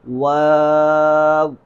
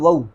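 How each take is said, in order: First: It has a long aa vowel, sounding like waaw. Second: It has a short vowel, sounding like wau. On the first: The speaker calls it right. "इसका असल तलफ़्फ़ुज़ ये है, वाव के बाद अलिफ़ है" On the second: The speaker calls it wrong. "गलत पढ़ देते हैं कि इसको पढ़ देते हैं वऊ"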